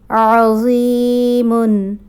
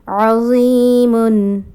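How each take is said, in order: The two takes are said the same way.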